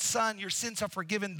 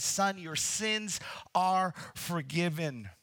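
First: Said in the usual way. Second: Authoritative. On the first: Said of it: "when the scribes heard". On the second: Retold or imitated. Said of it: "with authority ... instantly he says".

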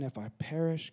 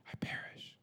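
First: Said in the usual way. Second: Hushed, voiceless echo of the quote; very soft, reverent whisper; awed whisper. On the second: Retold or imitated. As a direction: whisper it, letting the words sink in. Repeats Esther's words in awe.

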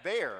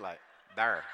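First: "There." with the R ridden hard, said like "thurr"; Saint Louis there. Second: "there" loud with a heavy R; Saint Louis there. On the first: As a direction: stretch the vowel into a heavy R in "There.". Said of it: "I hear some people say there". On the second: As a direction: lean hard on the R in "there". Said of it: "words that has R's in it". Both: Shown as a demonstration.

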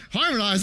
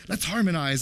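First: A louder disbelieving "Harmonize?" with a falling end; incredulous echo. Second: Said in the usual way. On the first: Retold or imitated. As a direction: repeat "Harmonize?" as if it's absurd. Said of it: "And I thought". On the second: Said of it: "one of the kids... said".

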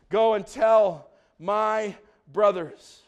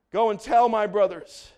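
First: "Go and tell my brothers" spaced out slowly; slow, deliberate reading. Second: Said in the usual way. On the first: Real, not acted. Preacher reading Jesus' command, "Go and tell my brothers" slowly word by word. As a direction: pause before "my" and before "brothers". Verse read slowly, then repeated.

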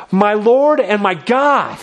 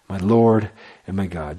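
First: Thomas suddenly seeing it; awed exclamation. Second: Hushed reverence. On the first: Thomas exclaims to Jesus, higher and slow in awe. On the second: Preacher repeats Thomas's words in hushed reverence. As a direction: lower and softer, reverent. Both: Acted.

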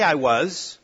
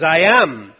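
First: Said in the usual way. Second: "I am." pressed out louder, firm and final; stress on am. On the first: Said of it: "He doesn't say". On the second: Shown as a demonstration. Preacher contrasting I was with the louder, weighty "I am". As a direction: lands hard on "am" as Jesus' own words. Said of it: "He says".

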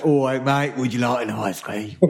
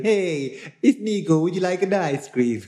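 First: Matey South London ice-cream seller; mock Southeast London accent. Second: High, singsong Italian ice-cream seller; mock Italian accent. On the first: Teasing Nico as a London ice-cream seller, mock London accent. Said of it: "I'm Nico from Southeast London". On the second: Imagining Nico selling ice cream to kids, mock Italian accent. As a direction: call out brightly in a hammed-up Italian accent. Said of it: "I did think you were Italian".

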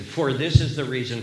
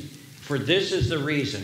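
First: "for" leaned on, a touch louder; stress on for. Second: Said in the usual way. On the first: Shown as a demonstration. Preacher showing his congregation the Greek structure, stress on "for". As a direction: hit "for" as the word that gives the reason. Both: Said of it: "And that word "for," it gives a ground or reason".

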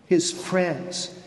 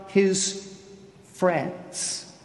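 First: Said in the usual way. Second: Whispered reveal; hushed whisper. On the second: Shown as a demonstration. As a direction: drop to a breathy whisper on friends.

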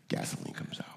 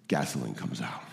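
First: Breathy whispered repeat. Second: Hushed answer. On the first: Preacher repeats the answer to the crowd: whispered. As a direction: whisper it back, barely voiced. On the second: Preacher hushes the congregation: soft low answer. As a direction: drop to a near whisper. Answer after rhetorical question. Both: Acted.

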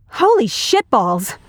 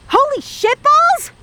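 First: Slow, mildly stunned oath; stunned exclamation. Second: Very high, slow shriek; panicked scream. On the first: Man just kissed by surprise, slow stunned reaction. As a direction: let the shock sink in slowly. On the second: Reacting to a sudden shock, high panicked shriek. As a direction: screech it in shock. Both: Acted.

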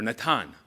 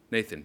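First: Natan as nah-TAHN; Natan the Hebrew way; Hebrew pronunciation. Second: Nathan as NAY-thun; English pronunciation. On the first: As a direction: say Natan with a T and open A. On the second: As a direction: say Nathan with a soft TH. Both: Shown as a demonstration. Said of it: "as you might say it".

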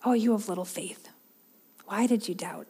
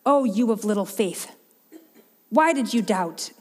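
First: Softer, tender question without blame; not critical. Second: A hint of impatient scolding, barely raised; angry tone. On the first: Retold or imitated. Jesus gently asking doubting Peter, soft and patient. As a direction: ask it kindly, with patience. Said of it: "that critical tone that we might read into that". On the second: Jesus rebuking doubting Peter, lightly stern and impatient. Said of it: "This, this angry ... no sense of patience".

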